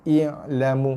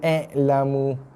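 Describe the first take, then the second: First: The first vowel is a clear i sound. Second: The first vowel sounds like an e. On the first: The speaker calls it right. "Hamzah baris bawah dibaca dengan i" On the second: The speaker calls it wrong. "Bukannya i'lamu"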